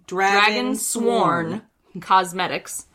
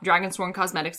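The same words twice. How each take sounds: First: The name is said slowly and deliberately. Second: The name is said at a normal, quick pace.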